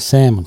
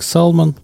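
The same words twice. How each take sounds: First: The L sound is silent in the word. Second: The L sound is pronounced in the word. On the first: The speaker calls it right. "L не читается в слове salmon, ... Читается salmon" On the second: The speaker calls it wrong. "многие читают как salmon"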